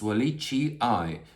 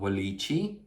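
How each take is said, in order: First: The word ends with two separate i sounds. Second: The word ends with a single i sound. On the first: The speaker calls it right. "You have to pronounce both letters" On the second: The speaker calls it wrong. "It's not"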